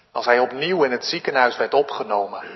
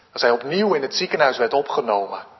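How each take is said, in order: No difference in how they are said.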